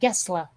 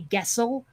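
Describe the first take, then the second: First: The name is given its Swedish pronunciation. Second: The name is read with an American English pronunciation. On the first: The speaker calls it right. "in Swedish it's pronounced Gessle" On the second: The speaker calls it wrong. "like an American would say Gessel"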